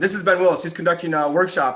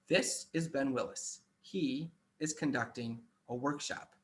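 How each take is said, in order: First: It is spoken quickly without a pause between phrases. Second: It is spoken slowly with a pause between phrases. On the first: The speaker calls it wrong. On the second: The speaker calls it right. "speak slowly ... create pauses between your speech. So I might say"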